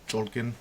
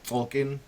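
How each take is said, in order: First: The word begins with a ch sound. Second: The word begins with a t sound. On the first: The speaker calls it right. "the proper pronunciation of it is called the Cholkin" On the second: The speaker calls it wrong. "I've been calling it Tolkien"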